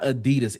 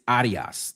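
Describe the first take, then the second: First: It uses the usual American pronunciation. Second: It uses the European pronunciation. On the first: The speaker calls it wrong. "it's not" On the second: The speaker calls it right. "that's the European pronunciation"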